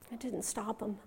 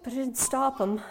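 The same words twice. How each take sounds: First: Very soft, sinking reflection; hushed repetition. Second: Said in the usual way. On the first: Acted. Mother reflects that nothing stopped John, hushed repetition. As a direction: drop it almost to nothing. Repeated, much softer.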